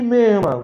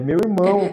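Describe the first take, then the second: First: The phrase is squeezed into two short syllables. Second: The phrase is said fully with every syllable. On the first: "Eles estão falando merma" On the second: "É meu irmão"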